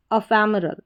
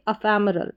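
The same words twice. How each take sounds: The two takes are said the same way.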